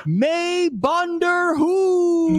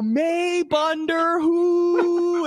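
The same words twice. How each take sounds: First: "May Bunder Who" stretched very slow and high; drawn-out Punjabi phrase. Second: "May Bunder Who" very slow and high, holding "Who" even longer; held-out Punjabi phrase. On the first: Ring announcer shouting the Punjabi rib at the crowd, slow and high. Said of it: "I just said this, which translates to". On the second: Announcer trying the Punjabi line a second time, holding it longer. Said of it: "hold the who, like, even longer this time". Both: Retold or imitated.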